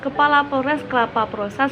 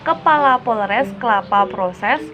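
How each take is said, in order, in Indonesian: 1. Kalimat diucapkan dengan kecepatan tinggi. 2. Kalimat diucapkan dengan kecepatan normal.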